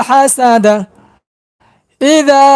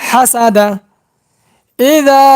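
Both takes have the same delivery.

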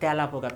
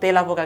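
First: The first vowel is an open, wide e sound. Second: The first vowel is a closed e sound. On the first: The speaker calls it right. "আমরা কি বলি? তেলাপোকা।" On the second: The speaker calls it wrong. "কখনো তেলাপোকা কিন্তু বলি না"

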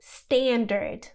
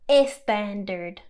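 First: The word begins directly with the s sound. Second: An extra e vowel comes before the s. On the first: The speaker calls it right. "debes decir standard" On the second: The speaker calls it wrong. "no standard"

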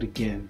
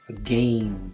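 First: The second syllable sounds like gen. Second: The second syllable rhymes with game. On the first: The speaker calls it right. "it's like a E in there" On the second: The speaker calls it wrong. "they'll pronounce it exactly the way it looks with the A"

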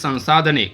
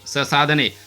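First: The first syllable carries a nasal sound. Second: The first syllable is plain, with no nasal. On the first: The speaker calls it right. "परंतु वरती टिंब आहे म्हणून संसाधने" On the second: The speaker calls it wrong. "जर normal शब्द वाचला असा"

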